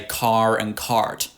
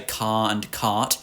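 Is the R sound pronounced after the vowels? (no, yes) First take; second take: yes; no. First: The R after the vowels is clearly pronounced. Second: The R after the vowels is not pronounced. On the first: "They do do it, and they say" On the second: "We are non-rhotic, so we say"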